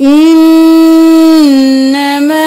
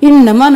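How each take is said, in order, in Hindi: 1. "n" को दोहरा करके नासिका ध्वनि के साथ रोका जाता है। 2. "n" छोटा है, उसमें नासिका ध्वनि नहीं रोकी जाती। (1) "तशदीद है गुन्ना किया" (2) "नहीं करना"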